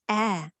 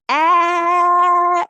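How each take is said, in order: First: The vowel is said quietly. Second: The vowel is said loudly. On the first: "I can say it softly" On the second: "I can say it loudly"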